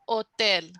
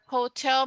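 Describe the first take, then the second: First: The word starts directly with the o vowel. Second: The word starts with an h sound.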